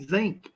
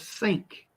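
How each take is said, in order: First: The word begins with a buzzing z sound. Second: The word begins with a hissing s sound. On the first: This is how old-timers in the region say it. "old timers in West Virginia say zinc" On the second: This is the usual way to say it. "instead of sink"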